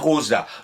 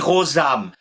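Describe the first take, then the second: First: The word ends on a vowel, no m sound. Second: The word ends with a pronounced m sound. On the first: "comme on arrête de prononcer le M, ça devient Rosa" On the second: "on dit Rosam"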